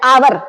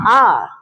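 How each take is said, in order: First: "आवर" said with a full "h" sound, as spelled; "आवर" said the wrong way, the h pronounced; wrong pronunciation. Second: "आर" said with a silent h, like "our"; "आर" said the right way, no h at the start; correct pronunciation. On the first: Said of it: "उसको आवर नहीं बोलते". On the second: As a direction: drop the h: "आर". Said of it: "उसको क्या बोलते हैं". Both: Shown as a demonstration.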